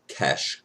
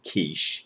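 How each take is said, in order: First: The name is said with a short e vowel. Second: The name is said with a long ee vowel. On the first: The speaker calls it right. "pronounce the name Kesh correctly" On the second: The speaker calls it wrong. "I've always said quiche, like the food"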